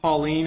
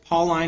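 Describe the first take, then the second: First: It is said like the woman's name. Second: It is not said like the woman's name. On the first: It names a woman. The speaker calls it wrong. "not Pauline, as my professor says. Pauline's my aunt" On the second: It refers to the apostle Paul. The speaker calls it right. "It's Pauline"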